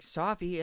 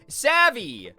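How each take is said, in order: First: The word is said with an o and f sound. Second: The word is said with a short a and v sounds. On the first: This is how someone else said it. "She was saying it as Sophie" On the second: This is the word as it should be said. "Savvy is what the word was"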